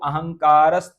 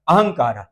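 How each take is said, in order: First: The word ends with an s sound. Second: The word ends with a breathy h sound. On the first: "हलंत जो सा है" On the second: "सा को क्या कर दो, विसर्ग कर दो"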